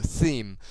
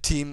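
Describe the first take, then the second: First: The word begins with a TH sound. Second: The word begins with a plain T sound. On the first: The speaker calls it right. "it's actually pronounced a theme" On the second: The speaker calls it wrong. "team is the incorrect pronunciation"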